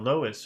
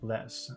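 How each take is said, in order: First: The word sounds like 'lo-ess'. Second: The word sounds like 'less'. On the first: The speaker calls it wrong. "I've been saying Loess for some reason" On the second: The speaker calls it right. "actually, it's less"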